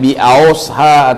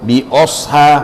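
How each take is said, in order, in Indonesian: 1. Vokal pertama meluncur seperti 'au'. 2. Vokal pertama adalah 'o' yang dibulatkan. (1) "Jangan bi ausha" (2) "atau bi osha"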